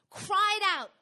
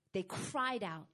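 First: Loud, high drawn-out cry. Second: Said in the usual way. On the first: Acted. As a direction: build it into a raised, pleading call. Acts the escalating cries.

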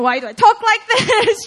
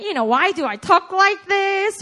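First: Loud, high, breaking into a laugh; mock whine that dissolves into laughter; laughing at herself; laughing self-complaint. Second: Said in the usual way.

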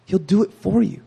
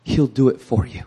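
First: Second take higher, pressing FOR; repeated promise, higher and firmer; repeated, lifted higher. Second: Said in the usual way. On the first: Shown as a demonstration.

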